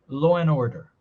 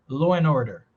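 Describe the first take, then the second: Both takes have the same delivery.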